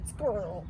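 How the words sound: The word is said in an American accent. Someone else said it. "because of his American accent. He he couldn't say squirrel"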